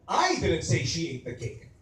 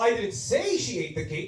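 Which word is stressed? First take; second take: I; say. First: The stress falls on the word I. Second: The stress falls on the word say. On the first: Someone else said it. "Maybe you said it, I didn't" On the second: It was only hinted at. "what if naman it's say?"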